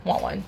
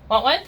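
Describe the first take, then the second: First: Said in the usual way. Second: "Want one?" sung high with a rising tune; "Want one?" lilting up at the end; how I say treat. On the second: Shown as a demonstration. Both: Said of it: "That's how I say treat".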